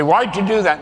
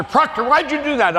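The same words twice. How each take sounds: First: Lightly voiced mother asking why; a hint of a mother scolding her little boy. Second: Higher, hammed-up officer demanding an answer; commanding officer barking. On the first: Mother scolding her kid, mild mock exasperation. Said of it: "my mother". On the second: Commanding officer grilling a sailor, mock demanding bark. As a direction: play the Navy officer calling him out. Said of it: "Every commanding officer".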